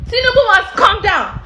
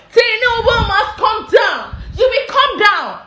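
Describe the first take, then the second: First: Said in the usual way. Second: Slow shouted demand. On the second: Real, not acted. Protest call against president.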